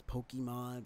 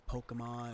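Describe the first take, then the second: First: "Pokemon" said POH-kee-mon, clear ee in the middle; personal pronunciation. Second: "Pokemon" said POH-kuh-mon, middle vowel a short uh; correct pronunciation. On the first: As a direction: say "Pokemon" with an ee as the second vowel. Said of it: "Kinda pronounce it as Pokemon". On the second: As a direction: say "Pokemon" with uh, not ee, as the second vowel. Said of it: "but it's Pokemon". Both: Shown as a demonstration.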